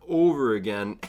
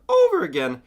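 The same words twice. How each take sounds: First: Varied tonality. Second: "over again" suddenly high and loud; tonality thrown in. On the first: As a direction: stretch "over again" in a rolling tone. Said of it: "not just doing the same one over and over". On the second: Speaker breaking the monotone, "over again" thrown high and loud. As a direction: burst upward on "over again". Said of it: "let the vo-, vocal tonalities go where they go". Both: Shown as a demonstration.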